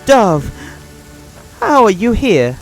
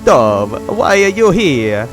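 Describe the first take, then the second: First: It is said in a Swedish-sounding accent. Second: It is said in an Italian-sounding accent.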